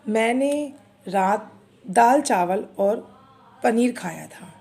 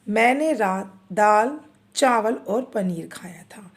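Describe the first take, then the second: First: The two words run together without a pause. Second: A brief pause comes between the two words. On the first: The speaker calls it wrong. "जब यहाँ पर अल्प विराम नहीं होगा तो मैं ये दोनों शब्दों को मुझे एक साथ पढ़ना होगा" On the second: The speaker calls it right. "दाल के बाद जब मैंने चावल बोला तो मैं एक सेकंड से भी कम समय के लिए रुकी हूँ"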